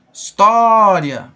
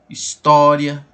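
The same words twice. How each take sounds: First: História said very slowly and loudly, the tó held long; stretched stressed syllable. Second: Said in the usual way. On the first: Shown as a demonstration. Teacher stretching the word for students, loud and drawn out. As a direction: drag out the tó in História, loud and slow. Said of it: "fale a palavra assim, alongando ela". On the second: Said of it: "Vamos lá analisar história".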